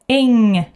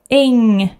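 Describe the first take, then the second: First: It ends with only a nasal sound. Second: It ends with only a nasal sound.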